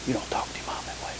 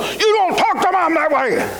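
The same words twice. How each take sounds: First: Breathy whisper, soft and quick. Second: A higher, sharp scolding parent; stern scolding. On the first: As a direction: hush the scolding into a whisper. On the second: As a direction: scold the teen firmly, pitched higher. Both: Shown as a demonstration. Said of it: "much more done by whispering".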